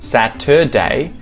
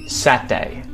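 First: The word is said with all three syllables. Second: The word is squeezed into two syllables. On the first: "one day of the week that has three syllables" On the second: "They'll reduce it down to just Sat-day"

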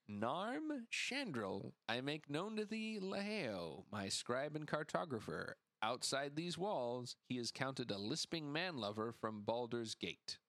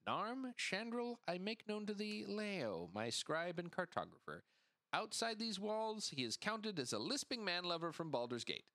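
First: It is read slowly. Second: It is read at normal speed.

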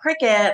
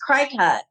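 First: The name sounds like the word cricket. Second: The name does not sound like cricket. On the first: The speaker calls it right. "cricket is spelled C-R-I-C-U-T" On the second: The speaker calls it wrong. "for years, I was pronouncing this cricut"

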